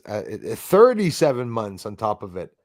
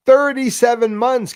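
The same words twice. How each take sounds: First: Said in the usual way. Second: Thirty-seven said higher and louder, punched hard; stress on thirty-seven. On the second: Real, not acted. Streamer correcting a viewer's count, stress on Thirty-seven.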